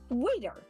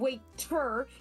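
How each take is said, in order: First: The middle consonant is a quick tongue tap. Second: The middle consonant is a full, crisp T. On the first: The speaker calls it right. "It's a quick tongue tap" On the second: The speaker calls it wrong. "It's not a full, like in T or top or two"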